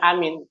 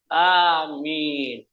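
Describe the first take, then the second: First: The vowels in the word are short. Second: The vowels in the word are long. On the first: It is the political slogan, not the prayer word. "Beda dengan amin" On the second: It is the prayer response said after a supplication. "panjang. Makanya kita membacanya harus panjang"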